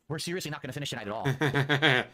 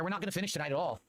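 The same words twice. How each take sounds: First: Louder, fed-up repeat; exasperated. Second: Said in the usual way. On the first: Real, not acted. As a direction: push it out in frustration.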